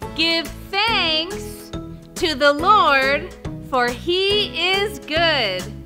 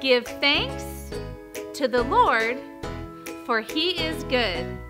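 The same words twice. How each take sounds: First: It is said very loudly. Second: It is said at normal speed and volume.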